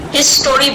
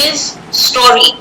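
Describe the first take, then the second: First: It is said as one smooth word. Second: It is said as two separate words. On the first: It means the study of the past. The speaker calls it right. "you have to say history" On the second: It means the story belonging to him. The speaker calls it wrong. "I might mistake it to be his story"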